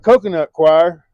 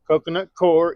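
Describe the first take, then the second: First: The second word sounds like choir, rhyming with fire. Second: The second word sounds like core, rhyming with more. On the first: "some people call it choir" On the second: "It's spelled core"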